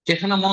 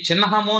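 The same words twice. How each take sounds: First: The n sound comes after the h sound. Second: The n sound comes before the h sound. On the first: The speaker calls it wrong. "చిహ్నము అని చదవకూడదు" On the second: The speaker calls it right. "నా ముందు చదవాలి ... చిహ్నము అని చదవాలి"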